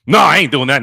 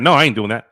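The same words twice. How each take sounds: First: A louder, slightly raised mock refusal from a timid friend. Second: The same refusal again, lighter and near plain voice; repeated mock refusal. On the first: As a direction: imitate the friend turning it down firmly. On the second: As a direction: echo the refusal more casually. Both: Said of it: "he's always, you know".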